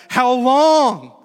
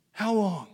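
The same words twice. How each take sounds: First: Loud, high anguished cry; crying out to God. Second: Higher plea, no longer shouted; spent plea to God. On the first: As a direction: shout it out as a drawn-out plea. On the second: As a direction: let the cry subside into a plea. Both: Acted. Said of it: "cry out to God".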